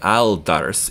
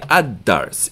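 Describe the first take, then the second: First: The l sound is clearly pronounced. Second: The l blends into a doubled d. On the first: The speaker calls it wrong. "we're not going to say al dars" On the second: The speaker calls it right. "We're going to say ad dars"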